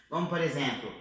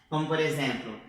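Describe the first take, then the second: The two takes are said the same way.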